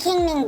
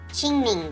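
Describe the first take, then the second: First: The name begins with a hard k sound. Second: The name begins with a ch sound. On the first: The speaker calls it wrong. "I like calling it Kingming because it that kind of rolls off the tongue" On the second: The speaker calls it right. "Or I guess Qingming"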